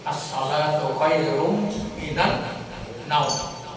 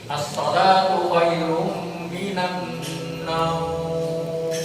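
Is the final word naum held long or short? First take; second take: short; long. First: The final word naum is short and clipped. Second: The final word naum is drawn out long. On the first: "kalau di Makkah ... Naumnya pendek" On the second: "Kalau kita di sini ... Naum itu madlim, lembut"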